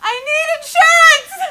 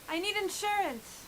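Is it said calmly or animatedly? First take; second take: animatedly; calmly. First: It is said in a loud, animated way. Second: It is said in a calm, plain way.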